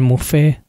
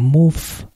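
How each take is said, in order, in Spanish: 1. El nombre se dice de la forma habitual, cotidiana. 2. El nombre se dice de la forma original, nativa. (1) "Si dicen Mouffe no va a haber demasiado problema" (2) "en realidad creo que se pronuncia algo así como Mouffe"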